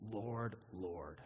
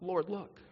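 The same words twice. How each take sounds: First: Low, soft and unhurried invocation; humble plea. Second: Higher, pushy appeal for notice; self-justifying plea. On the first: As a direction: say it low and softly, as a humble address. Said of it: "That is what we say on that day". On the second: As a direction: pitch it up, as if demanding attention. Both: Shown as a demonstration.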